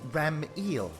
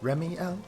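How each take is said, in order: First: The name ends with an 'eel' sound, like the fish. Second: The name sounds like 'Remy' followed by 'el'. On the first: The speaker calls it wrong. "Am I saying it wrong? It's Ram-eel, right? Like the fish" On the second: The speaker calls it right. "Yeah, there you go"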